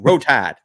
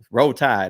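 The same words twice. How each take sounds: First: It is said in an exaggerated Alabama accent. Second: It is said in a plain, neutral way.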